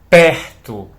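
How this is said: The R vibrates in the throat. "Observa como a garganta vibra"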